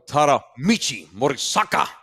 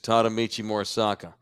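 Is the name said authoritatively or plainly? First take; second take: authoritatively; plainly. First: The name is said in a commanding, authoritative way. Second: The name is said in a plain, casual way. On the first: The speaker calls it right. "You got to say it with authority" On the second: The speaker calls it wrong. "you can't say just"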